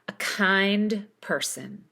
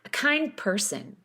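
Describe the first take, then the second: First: The D is released with a pause after it. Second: The D is held, linked without release. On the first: "Put spaces between each of these words and pronounce the duh" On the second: "Now connect it. Sustain the D, but don't explode it"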